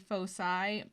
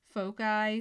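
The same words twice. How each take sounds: First: The word is said the American way. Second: The word is said the British way. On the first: "the American pronunciation is typically foci" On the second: "the British pronunciation is foci"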